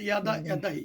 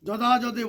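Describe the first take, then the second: First: The word begins with a 'y' sound. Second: The word begins with a 'j' sound. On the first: The speaker calls it right. "উচ্চারণ হবে ইয়" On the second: The speaker calls it wrong. "বলবো না"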